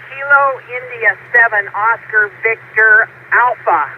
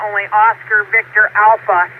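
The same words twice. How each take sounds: First: Slow, deliberate spelling out; careful unhurried voice. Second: Said in the usual way. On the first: Real, not acted. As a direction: spell each word out slowly. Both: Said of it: "let me say this slowly".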